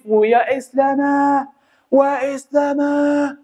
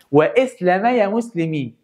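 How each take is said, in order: First: Long, drawn-out higher war cry; battle cry. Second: Said in the usual way. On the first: Acted. Qutuz rallying his soldiers, slow drawn-out battle cry. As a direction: stretch it out like a commander rallying troops. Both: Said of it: "دي كانت صيحة سيف الدين".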